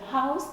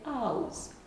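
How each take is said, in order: First: The word begins with an h sound. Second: The word begins without an h sound. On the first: "instead of house" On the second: "they drop this initial H"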